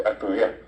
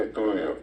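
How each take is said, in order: First: "A estudiar" stressed on the final A; stress on last syllable. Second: "estudio" stressed on TU; stress on middle syllable of ESTUDIO. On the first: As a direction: say "A estudiar" with Guaraní end stress. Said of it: "lleva siempre el acento al final". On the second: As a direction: say "estudio" with Castilian penultimate stress. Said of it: "no dice". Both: Shown as a demonstration.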